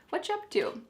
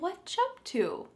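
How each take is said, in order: First: The phrase is said quickly with sounds linked together. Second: The phrase is said slowly with separated words. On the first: The speaker calls it right. "This is really fast" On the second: The speaker calls it wrong. "If you say this slowly"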